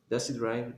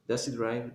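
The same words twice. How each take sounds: First: Said quickly with the h sound dropped. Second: The same.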